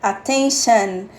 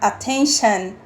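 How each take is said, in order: Both takes have the same delivery.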